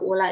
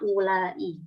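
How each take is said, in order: First: The word ends short, without lengthening. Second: The word ends lengthened, with an extra syllable. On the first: The speaker calls it wrong. "kalau ula ini dia pendek ya" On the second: The speaker calls it right. "Tapi kalau panjangnya ulai"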